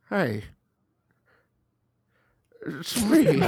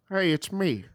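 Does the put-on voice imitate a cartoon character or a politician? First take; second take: politician; cartoon character. First: It is said in an elderly politician's voice. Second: It is said in a cartoon character's voice. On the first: "Can we get your President Joe Biden really quick?" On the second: "Homer Simpson. I can do Homer too"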